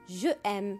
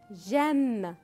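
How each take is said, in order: First: Je is said in full before aime. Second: Je loses its vowel and joins aime. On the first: The speaker calls it wrong. "On ne peut pas dire je aime" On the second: The speaker calls it right. "Non, on dit j'aime"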